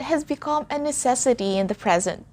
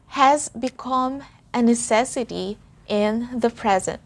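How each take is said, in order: First: The sentence is spoken faster. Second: The sentence is spoken slowly. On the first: "One more time, but a bit faster" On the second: "Let's say that slowly"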